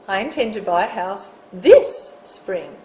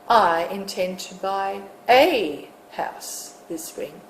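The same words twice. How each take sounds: First: The stress is on this. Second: The stress is on a.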